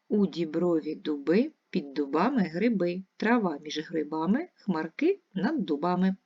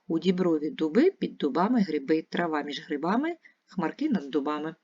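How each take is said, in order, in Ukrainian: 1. Скоромовку вимовляють повільніше. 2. Скоромовку вимовляють швидше. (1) "Ще раз" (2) "А тепер швидше"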